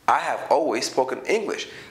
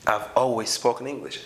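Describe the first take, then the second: First: 'I have' is said as two full words. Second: 'I have' is shortened to one syllable. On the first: "instead of saying I have always spoken English" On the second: "I said I've always spoken English"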